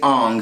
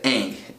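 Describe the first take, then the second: First: The name is said the way the movie says it. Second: The name is said the way the show says it. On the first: The speaker calls it wrong. "In the movie, they say Ong" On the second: The speaker calls it right. "The whole T V show says Aang"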